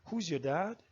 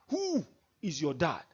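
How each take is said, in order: First: It is asked with plain curiosity. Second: It is asked with proud, angry scorn.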